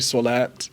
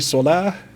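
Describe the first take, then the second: First: The word ends with a t sound. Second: The word ends with an h sound. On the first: "This this letter is a T" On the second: "then you would pronounce it like a H"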